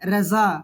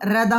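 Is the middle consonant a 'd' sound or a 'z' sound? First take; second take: z sound; d sound. First: The middle consonant is a 'z' sound. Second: The middle consonant is a 'd' sound. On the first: The speaker calls it right. "এরকম হবে" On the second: The speaker calls it wrong. "রেদা হবে না"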